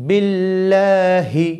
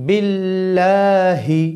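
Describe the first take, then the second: The two takes are said the same way.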